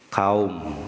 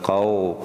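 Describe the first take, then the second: First: The diphthong ends with a u-like vowel. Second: The diphthong ends with an o-like vowel. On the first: The speaker calls it right. "Nah kalau wau nanti itu ke u ya, bukan ke o" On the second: The speaker calls it wrong. "bukan kau"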